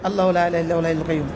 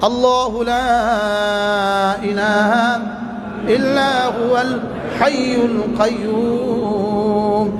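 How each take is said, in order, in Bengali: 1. এটি হালকাভাবে, তেমন আবেগ ছাড়া পড়া হচ্ছে। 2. এটি গভীর আবেগ নিয়ে পড়া হচ্ছে। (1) "আমরা পড়ছিলাম এমন করে, এমন করে পড়ছি পড়ছি আর কি" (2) "হৃদয়ের গহীন থেকে"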